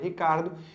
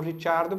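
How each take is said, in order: First: The surname is pronounced the English way. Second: The surname is pronounced the Italian way. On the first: This is how its bearer prefers it. "ele pede que fale Ricardo" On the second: This follows the name's family origin. "O nome correto dele seria Daniel Ricciardo, porque é um sobrenome italiano"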